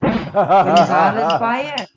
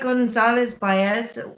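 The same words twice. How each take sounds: First: It is said in a Welsh accent. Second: It is said in a plain accent.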